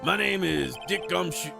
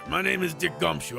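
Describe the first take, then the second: First: It is spoken in a Southern American accent. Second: It is spoken in a Brooklyn accent. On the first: The speaker calls it wrong. "Why did I slip into a southern accent there?" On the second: The speaker calls it right. "There we go"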